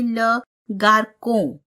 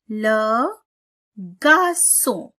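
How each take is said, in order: First: The c is pronounced as a k sound. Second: The c is pronounced as an s sound. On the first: The speaker calls it wrong. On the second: The speaker calls it right.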